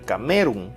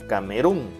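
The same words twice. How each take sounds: First: The stress is on the second syllable. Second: The stress is on the last syllable. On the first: "Si fuera en me" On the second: "si le aplicamos la fuerza de voz a run"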